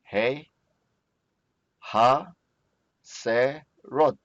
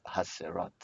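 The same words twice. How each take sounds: First: "ha, se, rot" read out slowly, with a pause after each syllable. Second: "ha, se, rot" run together softly, much quieter; quiet confirming repeat. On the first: Teacher sounds out "ha, se, rot" for the class one syllable at a time. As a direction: split "ha, se, rot" into separate beats with gaps between. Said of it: "how about cord ears?". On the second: Teacher softly repeats "ha, se, rot" to approve the reading. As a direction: murmur "ha, se, rot" back as a quick soft check. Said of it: "Yes, very good". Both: Shown as a demonstration.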